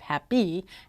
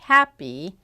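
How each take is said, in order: First: The stress is on the second syllable. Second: The stress is on the first syllable. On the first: The speaker calls it wrong. "instead of" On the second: The speaker calls it right. "correct lexical stress"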